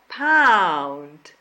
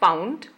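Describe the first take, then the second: First: The vowel is a long, open 'ow' sound. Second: The vowel is short and not fully opened. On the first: The speaker calls it right. "but pound" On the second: The speaker calls it wrong. "Not pound"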